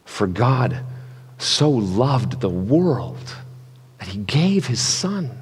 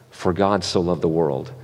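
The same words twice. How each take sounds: First: Generous reading. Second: Said in the usual way. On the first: Shown as a demonstration. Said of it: "how big and generous the actual words". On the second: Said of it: "this verse".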